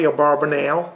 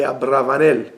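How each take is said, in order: First: Abarbanel with a b, the form to avoid; wrong pronunciation. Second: Abravanel with a v, stressed and falling; correct pronunciation. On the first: Teacher corrects students, Abarbanel said wrong. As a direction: say Abarbanel with a b as the mistake. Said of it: "It's not the Abarbanel". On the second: Teacher corrects students, Abravanel said right. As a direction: say Abravanel with a clear v. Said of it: "that's the way you should say it". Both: Shown as a demonstration.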